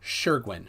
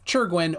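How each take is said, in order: First: Shergwin, opening on a "sh" sound; alternative pronunciation. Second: Churgwin with a hard "ch" start; Churgwin, opening on a "ch" sound; alternative pronunciation. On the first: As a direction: begin Shergwin as in "sure". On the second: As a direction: begin Churgwin as in "church". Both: Real, not acted. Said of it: "Shergwin in, is in parentheses".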